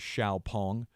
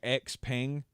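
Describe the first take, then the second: First: The name begins with a 'shyow' sound. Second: The name begins with the letter sound 'ex'. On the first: This is the official pronunciation. The speaker calls it right. "I looked up the official pronunciation. Apparently, it is Xiaopeng" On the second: This is how the spelling looks. The speaker calls it wrong. "it looks like Xpeng"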